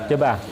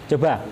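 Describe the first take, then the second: No difference in how they are said.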